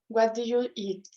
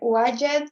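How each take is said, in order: First: Each word is pronounced clearly and separately. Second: The words are squeezed together and reduced. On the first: "instead of" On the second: "don't pronounce your words clearly"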